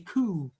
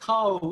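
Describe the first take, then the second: First: The word is said with a Scottish vowel. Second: The word is said with an Irish vowel.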